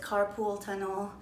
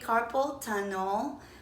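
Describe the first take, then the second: First: The first word sounds like carpool. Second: The first word sounds like carpal. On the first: The speaker calls it wrong. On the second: The speaker calls it right.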